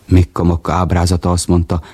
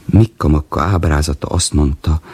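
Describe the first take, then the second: No difference in how they are said.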